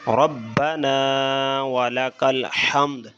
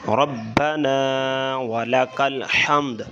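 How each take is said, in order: The two takes are said the same way.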